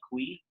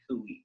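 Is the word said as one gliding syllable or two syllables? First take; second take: one syllable; two syllables. First: The vowels glide together into one syllable. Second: The vowels are said as two separate sounds. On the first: "almost a diphthong, where it's almost like kui" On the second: "it is kind of two separate sounds. It's like kui"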